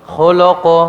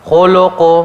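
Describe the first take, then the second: The two takes are said the same way.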